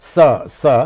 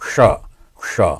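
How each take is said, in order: First: The hiss is a sharp dental s sound. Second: The hiss is a retroflex sh sound. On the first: "ওপরের দাঁতে ছুঁয়ে যে উচ্চারণটা" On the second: "মূর্ধাতে গিয়ে যখন উচ্চারণ হয়"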